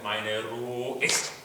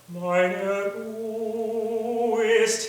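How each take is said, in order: First: The vowel in ist is clipped short. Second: The vowel in ist is stretched long. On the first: The speaker calls it wrong. "instead of meine Ruhe ist, and clipping that" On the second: The speaker calls it right. "can you stretch them even a little longer"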